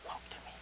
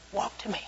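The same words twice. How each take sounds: First: Breathy hushed encouragement; whispered coaxing. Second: Put-on soft, quiet coaxing to a toddler. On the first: Acted. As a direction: whisper it to the toddler. Parent coaxing toddler, whispered. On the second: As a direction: coax a child's first steps.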